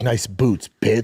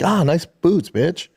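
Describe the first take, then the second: First: It sounds hostile and insulting. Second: It sounds friendly and casual.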